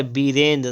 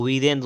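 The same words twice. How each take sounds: First: वीरेंद्र starting with b; closed-lip b opening वीरेंद्र; wrong pronunciation. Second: वीरेंद्र starting with v; correct pronunciation. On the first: Teacher showing the error, वीरेंद्र with b. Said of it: "नहीं होता है". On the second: Teacher correcting, वीरेंद्र with v. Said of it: "वीरेंद्र होता है". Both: Shown as a demonstration.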